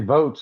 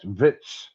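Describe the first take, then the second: First: The vowel is a long 'oh' sound. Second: The vowel is a short 'ih' sound. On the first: This is how most people say it. The speaker calls it right. "like everyone else" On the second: It mocks another person's odd pronunciation. The speaker calls it wrong. "he says Vits, Vits, V U T S"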